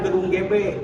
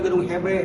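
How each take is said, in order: First: The letter is said with a G sound. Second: The letter is said with an H sound. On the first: "namanya gedung G B" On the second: "orang tua dulu nyebutnya gedung H B. Karena ejaan Belanda G dibaca H"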